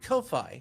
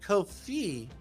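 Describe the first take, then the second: First: The second syllable rhymes with 'Wi-Fi'. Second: The word sounds like 'coffee'. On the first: "all this time I've been calling it Ko-Fi" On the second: "to hear you say Ko-Fi and see the little coffee symbol"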